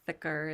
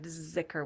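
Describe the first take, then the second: First: The word begins with a soft th sound. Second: The word begins with a buzzing z sound. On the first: This is the Arabic pronunciation. "is how it's said in Arabic" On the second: This is the Persian pronunciation. "zikr with a Z because he used the Persian pronunciation"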